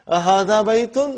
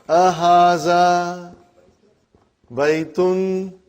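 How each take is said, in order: First: It ends with a questioning rise. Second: It ends without a questioning rise.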